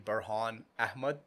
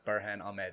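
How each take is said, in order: First: The name has a South Asian pronunciation. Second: The name has an American English pronunciation. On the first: This is how the name was said at home growing up. "the brown pronunciation of how I grew up" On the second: This is the everyday version used with others. "I've been just used to calling"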